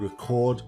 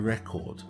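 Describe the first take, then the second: First: The stress is on the second syllable. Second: The stress is on the first syllable. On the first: It is a verb. "if it's on the second syllable, it's a verb" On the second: It is a noun. "If the stress is on the first syllable, then it's a noun"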